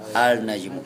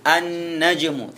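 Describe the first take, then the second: First: The l of the article is clearly pronounced. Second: The l merges into a doubled n sound. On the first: The speaker calls it wrong. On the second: The speaker calls it right.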